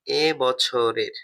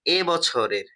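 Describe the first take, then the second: First: "এ বছরের" drawn out very slowly, word by word; dictating "এ বছরের" at a crawl; slow dictation. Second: Said in the usual way. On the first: Shown as a demonstration. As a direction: spell "এ বছরের" out slowly so students can write. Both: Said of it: "teacher repeats the phrase".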